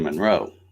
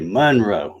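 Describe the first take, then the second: First: The stress is on the second syllable. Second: The stress is on the first syllable. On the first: This is how it is said in Indiana. "I always say Monroe because I guess being from Indiana" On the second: This is how it is said in the South. "people say Monroe. It's like they put the uh, emphasis on the mun"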